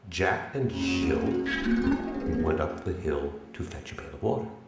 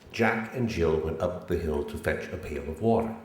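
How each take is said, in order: First: The word Jill is strongly stressed. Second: It is said plainly, without special stress.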